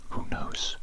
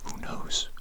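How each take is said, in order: Both takes have the same delivery.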